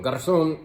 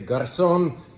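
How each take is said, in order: First: The z is said with a lisped th sound. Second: The z is said without any lisp. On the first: "I got to give it the Castilian lisp" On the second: "Let's just say Garzon"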